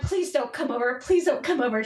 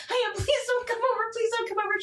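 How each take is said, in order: First: Mildly urgent repeated plea; understated retold pleading. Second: High-pitched frantic repeated plea; acted-out stressed begging; stressed pleading. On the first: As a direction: beg her to stay away, a little raised. Retold plea to mother-in-law. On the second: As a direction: beg in a panic, voice pushed way up. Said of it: "you sound stressed".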